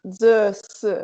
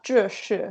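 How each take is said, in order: First: "ze si" with plain z and s, no h sound; "ze si" as a southern Chinese speaker says it; southern flat-tongue pronunciation. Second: "zhe shi" with curled-tongue zh and sh; "zhe shi" in a Beijing-style pronunciation; northern retroflex pronunciation. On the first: Retold or imitated. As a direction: say "ze si" with the tongue behind the teeth. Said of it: "he would say". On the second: Shown as a demonstration. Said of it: "if I were to say".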